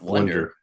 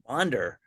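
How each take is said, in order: First: The first vowel sounds like 'uh'. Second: The first vowel sounds like 'ah'. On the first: The speaker calls it wrong. "not wonder" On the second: The speaker calls it right. "It's an A, not an O"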